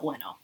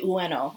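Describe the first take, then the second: First: The name is said quickly with sounds run together. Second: The name is said slowly with each sound clear. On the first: "conversationally, quickly, without thinking about it" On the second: "we're used to enunciating it very carefully"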